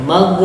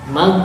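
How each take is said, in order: Both takes have the same delivery.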